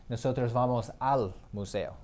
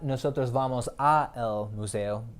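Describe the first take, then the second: First: The words a and el merge into al. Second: The words a and el are said separately. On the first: The speaker calls it right. "It's nosotros vamos al museo" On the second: The speaker calls it wrong. "it's not ... That doesn't sound right"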